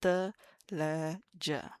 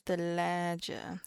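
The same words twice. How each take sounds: First: "Thalaja" very slow, with a drawn-out long a; long aleph. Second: "thalaja" slow, with a long second a; long aleph. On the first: Teacher exaggerating the long vowel for students. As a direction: draw the "a" out in "Thalaja". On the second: Teacher stretching the long vowel. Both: Shown as a demonstration. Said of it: "we have to hear the aleph".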